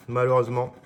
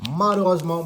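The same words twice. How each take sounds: First: Said in the usual way. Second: «Malheureusement» repeated much higher and louder, with rueful emphasis; emphatic repeat. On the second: Real, not acted. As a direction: punch «Malheureusement» a second time, louder and higher in mock despair. («Malheureusement» répété plus haut et plus fort, avec une emphase désolée)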